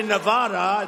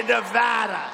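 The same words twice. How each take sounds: First: "Nevada" with a broad ah, ne-VAH-da; wrong Nevada. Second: "Nevada" with a short a as in "cat"; correct Nevada. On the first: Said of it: "You say that wrong". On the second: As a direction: say "Nevada" with a flat-open VAD, not VAHD. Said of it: "You gotta say Nevada". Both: Shown as a demonstration.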